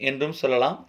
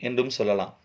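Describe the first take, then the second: The two takes are said the same way.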